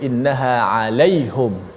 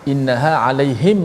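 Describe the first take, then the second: First: The pronoun is said with a u vowel. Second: The pronoun is said with an i vowel. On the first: This is another reciter's reading of the verse. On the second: This is the usual reading of the verse.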